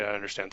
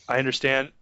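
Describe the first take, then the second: First: "I understand" dropped much softer and flat, curt brush-off; dismissive, much softer "I understand". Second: Said in the usual way. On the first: Shown as a demonstration. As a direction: say "I understand" quietly, as if you don't care. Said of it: "Don't say".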